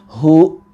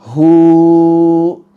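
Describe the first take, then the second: First: The vowel ends in an abrupt glottal catch. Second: The vowel is drawn out far too long. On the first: "kita direm dengan mendadak dan menambahkan seperti ada huruf hamzah" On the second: "Juga tidak dipanjangkan"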